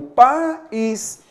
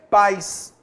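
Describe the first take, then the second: First: The two vowels fall in separate syllables. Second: The two vowels merge into one syllable. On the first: The speaker calls it right. "Cada vogal em sua sílaba" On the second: The speaker calls it wrong. "Senão a gente falaria o quê?"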